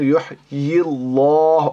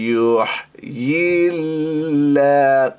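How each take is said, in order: First: The L in Allah is heavy and full. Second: The L in Allah is thin and light. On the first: The speaker calls it wrong. "ইউহয়িল্লাহ হবে না" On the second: The speaker calls it right. "সেজন্য এটা হবে বারিক"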